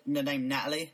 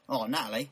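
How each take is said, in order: First: Said in the usual way. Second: Lightly mimicked Australian "Oh, Natalie"; Australian accent. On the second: Shown as a demonstration. Co-host imitating how Australians say a name, mock Australian accent. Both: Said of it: "when I hear Australians say the".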